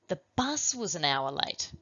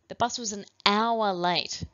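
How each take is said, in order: First: The word bus is stressed. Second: The word hour is stressed. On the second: "then hour"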